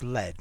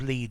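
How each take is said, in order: First: The vowel is short, as in 'fed'. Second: The vowel is long, as in 'feed'. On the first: It is the past form of the verb. "the past of lead is lead" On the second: It is the present form of the verb. "the past of lead"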